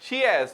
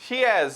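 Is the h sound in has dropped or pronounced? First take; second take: dropped; dropped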